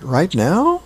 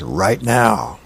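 First: Right now? lifted high on now; unsure, surprised Right now? with a rise; Right now? asked timidly with a high rise; rising question. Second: Flat, firm Right now. dropping at the end; Right now. settled with a calm downward close; falling statement. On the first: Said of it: "And he goes". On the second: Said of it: "she says". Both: Acted.

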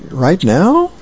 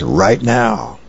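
First: "Right now?" asked high, with the tune rising on "now"; a disbelieving, high "Right now?"; startled question. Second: Said in the usual way. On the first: Acted. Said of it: "And he goes". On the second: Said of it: "the next frame she says".

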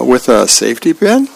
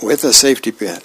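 First: "with a safety pin?" rising at the end; doubtful question. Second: "with a safety pin" falling at the end; matter-of-fact answer. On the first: Charlie Brown questions his sister's beach ball plan, doubtful rising question on "pin". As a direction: ask "with a safety pin?" with a rise on "pin". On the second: Sister answers Charlie Brown's doubt, matter-of-fact fall on "pin". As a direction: confirm "with a safety pin", dropping on "pin". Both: Acted.

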